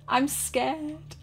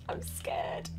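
First: Higher, small frightened voice; nervous, pitched-up admission; scared. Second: Hushed, much softer fearful voice; frightened, barely voiced; scared whisper. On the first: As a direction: confess fear in a raised pitch. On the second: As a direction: whisper it as if hiding. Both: Real, not acted.

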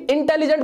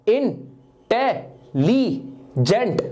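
First: Said in the usual way. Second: intelligent very slowly in four separate sounds; syllable by syllable. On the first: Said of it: "को बोल के देखो". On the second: Shown as a demonstration. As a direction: split intelligent into इन, टे, लि, gent with pauses. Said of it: "चार बार में आपकी आवाज निकली".

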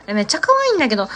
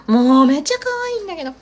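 First: Quick delighted burst on 可愛い; excited gush. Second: Higher, louder, with めっちゃ stretched out long; gushing louder. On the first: Streamer delighted by the finished map, fast and excited. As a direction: rattle it off fast, thrilled. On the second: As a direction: lean into めっちゃ and savour it. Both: Real, not acted.

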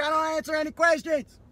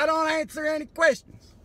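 First: Louder, higher mock yell. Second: Loud mock yell out the window. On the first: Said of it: "Yelling through his window loud like that". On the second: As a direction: bark it through the car window. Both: Man yelling at the cop through his window.

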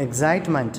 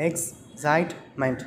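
First: Said in the usual way. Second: Slow "excitement" in three separate beats; syllable by syllable. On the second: Shown as a demonstration. Teacher counting syllables for children, "excitement" slowly split in three. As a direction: break "excitement" into ex, cite, ment with pauses. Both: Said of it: "three syllables".

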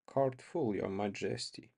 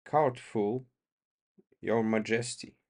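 First: Quieter, slower, bitter mock bow; softer, dragged-out mockery; slow changed tones. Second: Said in the usual way. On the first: A narrator's reading. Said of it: "in his slow tones, which had changed their quality". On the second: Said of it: "in his slow tones".

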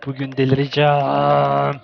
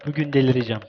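First: "Bugün delireceğim" stretched out slowly, every syllable long; slow, drawn-out mock despair; slow drawn-out repeat. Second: Said in the usual way. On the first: Shown as a demonstration. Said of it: "repeats slower". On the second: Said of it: "repeats the line".

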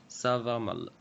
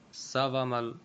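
No difference in how they are said.

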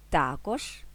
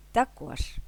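First: ТАкож, stress at the start, rising end; stress on first syllable. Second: ТаКОЖ, stress at the end, falling tune; stress on last syllable. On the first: (наголос на перший склад: ТАкож) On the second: (наголос на останній склад: таКОЖ) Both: Shown as a demonstration. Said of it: "подвійним наголосом".

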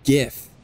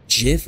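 First: "gif" with a hard G, as in "gift"; hard-G pronunciation. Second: "gif" with a soft G, like "jif"; soft-G pronunciation. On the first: Streamer debating how to say a word, "gif" with a hard G. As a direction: begin "gif" with a hard G, not J. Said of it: "It makes a G sound". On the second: Streamer debating how to say a word, "gif" with a J sound. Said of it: "It's Jif, which means the G. It makes a G sound". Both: Shown as a demonstration.

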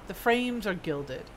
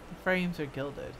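No difference in how they are said.

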